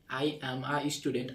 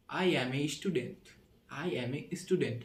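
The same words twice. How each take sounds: First: "a" said as "ah" in "I am a student", slow; slowly, with "a" as an open "ah"; British-style article. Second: "a" said as "ay" in "I am a student", slow; slowly, with "a" run on as "ay"; England-style article. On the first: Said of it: "এটা যদি ব্রিটিশে আমি উচ্চারণ করলাম". (British উচ্চারণে a-কে "আ" বলে) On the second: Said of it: "ইংল্যান্ডে উচ্চারণ করতে চাই তাহলে হবে". (ইংল্যান্ডের উচ্চারণে a-কে "এ" বলে) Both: Shown as a demonstration.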